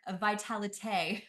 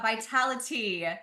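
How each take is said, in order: First: It is said with a French accent. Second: It is said with a plain English accent.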